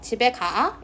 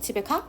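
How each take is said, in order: First: The final a vowel is said twice. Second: The final a vowel is said once. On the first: The speaker calls it wrong. "이렇게 묻지 않고" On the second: The speaker calls it right. "라고 물어보잖아요"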